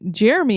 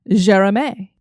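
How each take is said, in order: First: The name has an American English pronunciation. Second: The name has a French pronunciation. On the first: "we would say this name Jeremy in America" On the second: "he's French. So the way you would say his name is, I hope"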